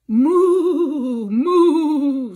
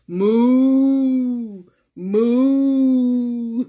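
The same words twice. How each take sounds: First: The moos are said in a normal voice. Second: The moos are said in a deep voice.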